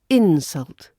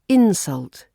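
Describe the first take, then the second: First: The stress is on the first syllable. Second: The same.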